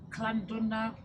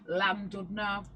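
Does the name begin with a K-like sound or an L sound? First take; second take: K-like sound; L sound. First: The name starts with a K-like sound. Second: The name starts with a plain L sound. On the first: The speaker calls it right. "I think it's pronounced" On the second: The speaker calls it wrong. "a place that I would pronounce as"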